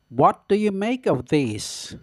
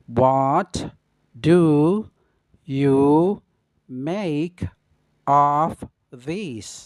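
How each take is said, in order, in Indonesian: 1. Kata-katanya menyatu saat diucapkan dengan kecepatan normal. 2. Setiap kata diucapkan terpisah dengan jeda. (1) "Yang pertama dengan pengucapan secara normal atau biasa" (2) "yang kedua dengan pengucapan kata per kata"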